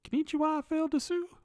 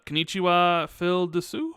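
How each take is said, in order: First: It is said in a put-on anime girl voice. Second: It is said in his normal voice.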